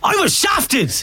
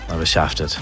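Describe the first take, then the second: First: It is said in an angry tone. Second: It is said in a disappointed tone.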